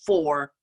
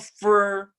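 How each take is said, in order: First: The word is said with the vowel of 'for'. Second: The word is said with the vowel of 'fur'. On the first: The speaker calls it right. "it's well, for" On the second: The speaker calls it wrong. "I would say, well, fur, and it's not fur"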